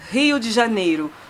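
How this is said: The name is said with Brazilian Portuguese pronunciation. The speaker calls it right. "je dis Rio de Janeiro ... tu fais l'accent"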